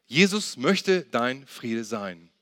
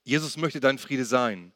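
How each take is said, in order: First: Very slow, deliberate, word by word; slow emphatic repeat. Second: Said in the usual way. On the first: Shown as a demonstration. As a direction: let each word sink in, slowly. Same point repeated slowly for emphasis.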